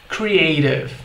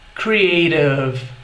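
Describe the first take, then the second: First: The word is said at normal speed. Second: The word is said slowly and drawn out. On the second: "Mais devagar"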